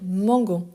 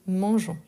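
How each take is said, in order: First: The g is hard, as in 'go'. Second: The g is soft, like 's' in 'measure'. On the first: The speaker calls it wrong. "il est conservé justement pour éviter de dire mangon" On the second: The speaker calls it right. "on dit mangeons"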